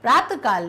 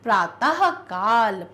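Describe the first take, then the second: First: The visarga is not sounded as 'ha'. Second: The visarga is sounded like a clear 'ha'. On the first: The speaker calls it wrong. "प्रातःकाल नहीं" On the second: The speaker calls it right. "विसर्ग का जो उच्चारण वो हा के समान होता है"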